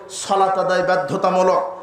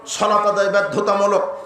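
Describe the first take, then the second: No difference in how they are said.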